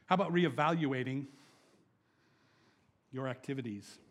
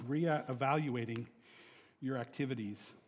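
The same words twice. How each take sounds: First: Said in the usual way. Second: Slow emphasis. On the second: Shown as a demonstration. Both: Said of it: "repeated slowly".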